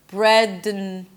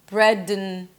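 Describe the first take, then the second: No difference in how they are said.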